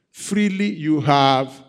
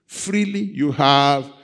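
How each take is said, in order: Both takes have the same delivery.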